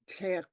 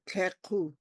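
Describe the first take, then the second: First: It ends on a lip-rounded k, no vowel. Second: An extra vowel sound follows the final k. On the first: The speaker calls it right. "It's tek. ... you purse your lips around the K" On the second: The speaker calls it wrong. "I don't want to hear teku"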